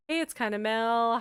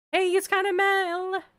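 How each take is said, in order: First: Said in the usual way. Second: High, loud YouTube intro; YouTuber greeting. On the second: Real, not acted. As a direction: greet viewers like a vlogger. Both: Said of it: "why did I say it like that?".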